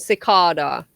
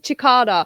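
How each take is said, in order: First: The word begins with an s sound. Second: The word begins with a ch sound.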